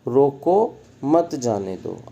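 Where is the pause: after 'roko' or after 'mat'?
after roko. The pause comes right after 'roko'. Do not let them go. "अब यहाँ पर न जाने दो की बात हो रही है"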